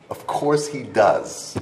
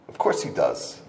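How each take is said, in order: First: "Of COURSE he DOES" slow and drawn out; emphatic repeat. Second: Said in the usual way. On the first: Real, not acted. Speaker insists even the great rabbi has issues, slow emphasis on "course". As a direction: stretch "course" and "does" firmly, each word weighed.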